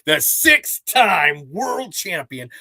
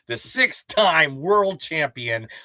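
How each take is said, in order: First: It is said much louder and stronger. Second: It is said at a normal volume.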